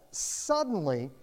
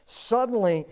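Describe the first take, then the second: First: "Suddenly" slow and drawn out; slow reading. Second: "suddenly" louder, punched; emphatic repeat. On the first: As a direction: let "Suddenly" hang, slow. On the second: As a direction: hit the repeated "suddenly" hard. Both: Shown as a demonstration. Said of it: "But it says".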